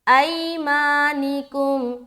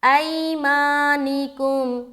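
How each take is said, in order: Both takes have the same delivery.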